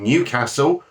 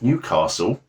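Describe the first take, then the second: First: It is said in a northern English accent. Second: It is said in a southern English accent.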